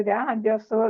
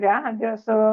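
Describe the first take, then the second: No difference in how they are said.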